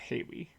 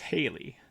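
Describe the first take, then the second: First: The name is said with a W sound. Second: The name is said with an L sound. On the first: The speaker calls it wrong. "has a way of mispronouncing my name" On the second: The speaker calls it right. "It's Haley"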